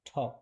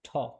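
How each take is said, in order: First: The first t sound has a strong puff of air. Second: The same.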